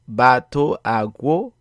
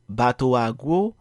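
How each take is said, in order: First: The words are said separately, with breaks. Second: The words flow together without breaks. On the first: The speaker calls it wrong. "If you did not pronounce this as" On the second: The speaker calls it right. "then you were correct. Notice how the sound a is pronounced as if it flows along with the word that comes before it"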